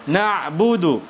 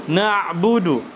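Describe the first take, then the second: The two takes are said the same way.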